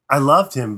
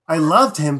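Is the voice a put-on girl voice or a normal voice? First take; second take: normal; girl voice. First: It is said in the speaker's normal voice. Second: It is said in a put-on girl voice.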